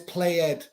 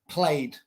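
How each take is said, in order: First: The ending is said as an extra syllable. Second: The ending adds no extra syllable. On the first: The speaker calls it wrong. "no es played" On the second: The speaker calls it right. "Así que no pronuncia ed"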